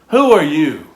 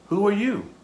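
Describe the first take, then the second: First: It is asked in a hostile tone. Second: It is asked in a neutral tone.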